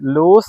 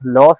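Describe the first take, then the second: First: The vowel is long, like in 'loose'. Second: The vowel is short, like in 'loss'. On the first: The speaker calls it right. "ഇതിന്റെ correct pronunciation ലൂസ് എന്നാണ് കേട്ടോ" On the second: The speaker calls it wrong. "ലൂസ് ആണോ ലോസ് എന്നാണോ?"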